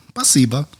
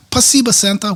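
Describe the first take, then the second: First: Said in the usual way. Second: High-pitched imitation of a grateful child; little Russian girl. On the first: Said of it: "And I said". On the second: Little Russian girl thanking Santa, imitated high voice. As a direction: lift the voice way up like a small girl. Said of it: "after that, she says".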